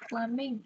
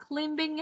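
First: Climbing with a silent b, klai-ming; correct climbing. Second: Climbing with the b sounded; wrong reading of climbing. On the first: Teacher correcting the child, silent b. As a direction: drop the b in climbing. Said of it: "Mình sẽ không đọc âm bờ". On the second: Teacher showing the child's wrong reading, b sounded. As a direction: say climbing with the silent b pronounced. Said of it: "nhưng mà đây là climbing". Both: Shown as a demonstration.

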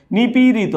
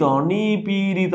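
First: Said in the usual way. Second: নিপীড়িত stretched slowly, syllable by syllable; drawn-out syllables. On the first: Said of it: "নিপীড়িত বানান সঠিক কোনটি". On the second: Shown as a demonstration. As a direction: spell out নিপীড়িত by lengthening its vowels. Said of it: "মাঝখানেরটা কি হবে".

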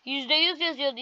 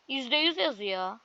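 First: Said in the usual way. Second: Slow, pressing each "yüz" in "yüzde yüz yazıyor"; stress on yüz. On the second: Shown as a demonstration. Gamer pointing out the screen to viewers, stressing "yüz" slowly. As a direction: lean on the second "yüz" with a rising end. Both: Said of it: "Bakın".

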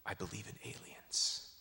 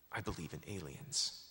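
First: Softer, earnest confession rising at the end; sincere. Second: Softer and lower, settled earnest conviction falling at the end; sincere. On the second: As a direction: state it quietly as a firm belief. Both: Retold or imitated. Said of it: "with all sincerity".

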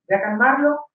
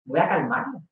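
First: Said in the usual way. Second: Much softer inner thought; soft private resolve; quiet to herself. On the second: Retold or imitated. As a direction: murmur it under your breath to yourself.

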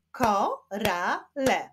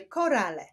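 First: "Korale" slowly split as ko, ra, le; three slow separate beats on "Korale"; syllable by syllable. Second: Said in the usual way. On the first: Shown as a demonstration. Teacher clapping syllables for pupils, "Korale" split in three. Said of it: "wyklaszczmy sylaby w wyrazie korale". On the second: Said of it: "wyklaszczmy sylaby w wyrazie".

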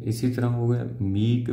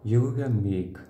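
First: "मीक" said with a long ee like meek; saying meek. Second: "मेक" said with a short e like make; saying make. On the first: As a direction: say "मीक" with a long ee, not "मेक". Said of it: "मिसाल के तौर पर आना चाहिए मीक". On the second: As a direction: say "मेक" as in make, not "मीक". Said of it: "जब हम सिर्फ great short hand में बनाएंगे". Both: Shown as a demonstration.

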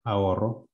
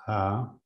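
First: Said in the usual way. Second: "Ahorro" partido en a, ho, rro, con pausas largas; sílabas separadas. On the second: Shown as a demonstration. ("Ahorro" separado, sílaba por sílaba) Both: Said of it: "tenía que separarlo".

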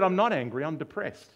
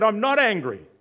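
First: High, loud protest, easing off; insistent denial. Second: High, very loud acted outburst; angry shouted denial. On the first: Retold or imitated. Patient answering his psychiatrist, insistent denial. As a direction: deny it firmly, as the retold patient. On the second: Patient losing it at his psychiatrist, angry shouted denial. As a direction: yell it in mock exasperation.

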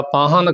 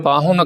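First: ਪਾਹਨ without the u after h; u left out. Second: ਪਾਹੁਨ with a short u after h. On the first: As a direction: drop the u, giving ਪਾਹਨ. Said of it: "ਔਂਕੜ ਤੋਂ ਬਿਨਾਂ ਬੋਲਤਾ". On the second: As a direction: say ਪਾਹੁਨ keeping the u. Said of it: "ਇਸ ਦਾ ਸ਼ੁੱਧ ਉਚਾਰਨ". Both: Shown as a demonstration.

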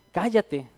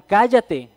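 First: Said in the usual way. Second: "Cállate" barked out louder as a mock crowd yell; shouted hush. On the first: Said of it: "No le dicen, le grita la gente". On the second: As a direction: snap it at him like an angry crowd. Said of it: "le gritaron".

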